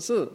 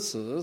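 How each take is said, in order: First: The pitch falls sharply from high. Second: The pitch dips low then rises. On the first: "Four tones of Mandarin" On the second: "Four tones of Mandarin"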